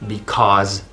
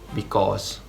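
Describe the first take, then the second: First: The final consonant is a buzzing Z. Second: The final consonant is a hissing S.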